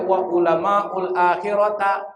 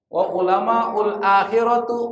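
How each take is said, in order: First: The last word ends in an a vowel. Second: The last word ends in a u vowel. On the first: "Enggak boleh" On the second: "Salah bacanya"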